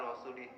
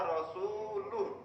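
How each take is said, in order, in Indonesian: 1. Kata terakhir berakhir dengan vokal i. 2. Kata terakhir berakhir dengan vokal u. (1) "Bacanya begitu, ... Kan salah nggih" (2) "Itu yang betul. ... Dibaca roh, rofa"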